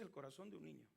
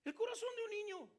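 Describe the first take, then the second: First: Hushed reflection; quiet. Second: Higher and louder, proclaiming; exultant preacher's cry. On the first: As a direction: lower and softer, reflective. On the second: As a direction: ring it out to the congregation. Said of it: "Ese es el corazón de un niño". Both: Shown as a demonstration.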